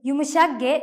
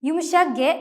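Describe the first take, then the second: Both takes have the same delivery.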